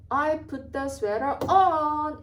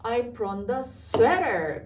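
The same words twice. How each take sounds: First: "on" punched at the very end, said very slowly; stress on on. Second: "sweater" stressed at the end, said very slowly. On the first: Teacher demonstrating stress to students, final "on" stressed. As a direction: lean hard on the final "on". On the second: Teacher showing students end stress on "sweater". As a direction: land the weight on "sweater". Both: Shown as a demonstration. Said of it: "끝에 찍히는 거예요".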